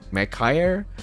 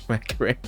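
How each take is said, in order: First: The name is said with English-style sounds. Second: The name is said with Japanese-style sounds. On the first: The speaker calls it wrong. "you've been saying it wrong" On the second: The speaker calls it right. "because it's Japanese, it's supposed to be said Mechire"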